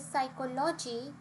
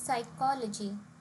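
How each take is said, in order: First: The stress falls on an unexpected syllable. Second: The stress falls on the expected syllable. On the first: The speaker calls it wrong. "the word stress here is not correct" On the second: The speaker calls it right. "The right way of saying this"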